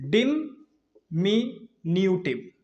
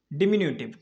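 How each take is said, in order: First: "डिमिन्यूटिव" very slow, split as di-mi-nyu-tiv; syllable by syllable. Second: Said in the usual way. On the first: Shown as a demonstration. Teacher introducing a new word, "डिमिन्यूटिव" slowly syllable by syllable. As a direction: draw out each piece of "डिमिन्यूटिव" with gaps.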